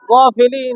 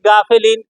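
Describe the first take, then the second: First: The first vowel is dark and rounded. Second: The first vowel is open and light. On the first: The speaker calls it right. "গইন জবর গ, গা বলা" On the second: The speaker calls it wrong. "আমরা অনেকেই পড়ি"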